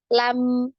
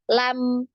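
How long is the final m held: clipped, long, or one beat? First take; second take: one beat; one beat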